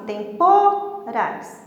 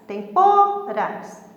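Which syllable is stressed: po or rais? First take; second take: po; po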